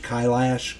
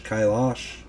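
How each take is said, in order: First: Kailash with a flat "a" as in "lash"; alternative pronunciation. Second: Kailash with an open "ah" in the second syllable; alternative pronunciation. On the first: Narrator unsure of the mountain's name, Kailash said "KY-lash". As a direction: say Kailash as "KY-lash", rhyming with cash. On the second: Narrator trying the mountain's name another way, Kailash said "ky-LAHSH". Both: Shown as a demonstration. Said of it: "not sure how you pronounce that".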